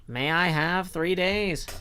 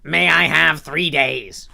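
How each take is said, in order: First: It is said in the reader's ordinary voice. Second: It is said in a put-on character voice. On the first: The speaker calls it wrong. "We don't have a separate voice for Renfield" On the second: The speaker calls it right. "we'll we'll do the Wazowski voice for for Renfield"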